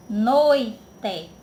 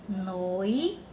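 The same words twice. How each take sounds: First: Said in the usual way. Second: Noite split into syllables, noi and te. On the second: Shown as a demonstration. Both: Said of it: "Aí eu vou e separei".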